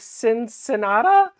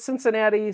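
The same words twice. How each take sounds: First: The word ends with an 'ah' sound. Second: The word ends with an 'ee' sound. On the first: The speaker calls it wrong. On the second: The speaker calls it right.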